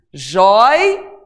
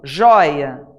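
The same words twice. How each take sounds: First: "Joia" broken as "jói... a"; "Joia" in two parts, first held long; split into syllables. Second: Said in the usual way. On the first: Shown as a demonstration. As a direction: stretch a loud, rising "joi" in "Joia", then a separate "a". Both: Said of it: "vou separar aqui pra você ver".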